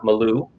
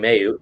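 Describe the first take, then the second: First: The surname has an L sound in the middle. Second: The surname has a Y sound in the middle. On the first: The speaker calls it wrong. "I used to call her Ashley uh, Malou" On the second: The speaker calls it right. "And it's Ashley Mayu"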